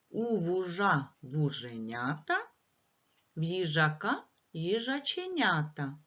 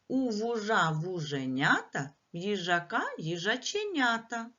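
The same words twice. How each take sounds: First: It is said at a slow pace. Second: It is said at a faster pace.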